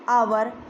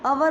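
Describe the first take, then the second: First: It starts with a long 'ow' glide. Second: It starts with a short flat 'uh' vowel. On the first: The speaker calls it right. "क्या होगा ये आवर" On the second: The speaker calls it wrong. "वो अवर जो है वो गलत है"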